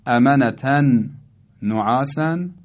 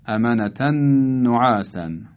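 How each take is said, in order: First: «امنتن نعاسن» as amanatan, pause, no'āsan; unmerged reading. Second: «امنتن نعاسن» as amanatan-no'āsan, one long n; idgham. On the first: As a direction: keep «امنتن» and «نعاسن» apart. (خواندن «امنتن نعاسن» جدا از هم) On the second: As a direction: join «امنتن نعاسن» on a held doubled ن. («امنتن نعاسن» با ادغام و نون مشدد) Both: Shown as a demonstration. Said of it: "تلفظ صحیحش به این ترتیبه".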